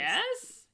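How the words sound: It ends with a rising, questioning tone.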